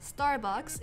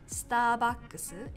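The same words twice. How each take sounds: First: It is said with an English pronunciation. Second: It is said with a Japanese pronunciation.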